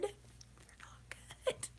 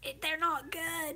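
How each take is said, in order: First: High, slow whispered complaint; hushed high whine about the cookies; whispered disgust. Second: Said in the usual way. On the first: Acted. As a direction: whisper it like a sad confession.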